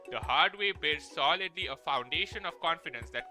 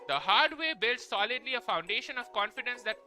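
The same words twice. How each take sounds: First: It is said in a deeper put-on voice. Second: It is said in an ordinary speaking voice.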